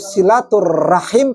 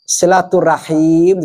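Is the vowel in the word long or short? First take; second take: short; long. First: A vowel in the word is kept short. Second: A vowel in the word is drawn out long. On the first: A bond of affection. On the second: A bond between people who love each other.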